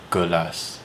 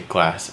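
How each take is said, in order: First: It is said with an added vowel syllable. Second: It is said with no extra vowel. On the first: This is how local speakers say it. "They put a little extra vowel syllable in there" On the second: This is how English speakers say it. "we say glass"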